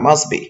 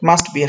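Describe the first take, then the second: First: The t in 'must' is dropped. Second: The t in 'must' is clearly pronounced. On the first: The speaker calls it right. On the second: The speaker calls it wrong.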